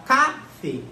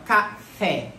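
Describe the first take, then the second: First: Café wrongly stressed on CA, as CÁ-fe; stress on first syllable. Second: Café split as ca-FÉ, weight on FÉ; stress on last syllable. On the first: Teacher testing which syllable is tonic, café mis-stressed on CA. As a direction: say café with a strong CA and weak fé. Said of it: "é a penúltima ou é a última?". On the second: Teacher testing which syllable is tonic, café stressed on FÉ. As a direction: say café with the final fé strong. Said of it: "a sílaba tônica é a última". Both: Shown as a demonstration.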